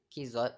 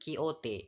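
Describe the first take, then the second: First: The name is said another English way. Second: The name is said the Spanish way. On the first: The speaker calls it wrong. "or Quixote" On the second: The speaker calls it right. "but Quixote. It is based on Spanish pronunciation"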